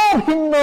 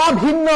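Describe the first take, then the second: No difference in how they are said.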